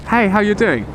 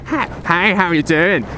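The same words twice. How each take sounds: First: It is said in the speaker's natural accent. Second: It is said in a put-on American accent.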